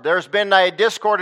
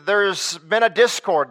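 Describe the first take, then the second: First: Said in the usual way. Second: Slow, weighty restatement; drawn-out preacher emphasis; slow emphatic. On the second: Acted. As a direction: let each word land slowly. Preacher repeats key line.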